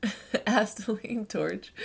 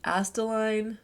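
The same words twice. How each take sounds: First: "Astaline" spelled out slowly as AS-ta-line; careful retry. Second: Said in the usual way. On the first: Real, not acted. Reader retrying "Astaline torch" slowly, with a laugh. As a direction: sound out "Astaline" syllable by syllable, amused.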